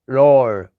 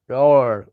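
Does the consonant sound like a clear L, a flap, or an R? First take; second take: R; R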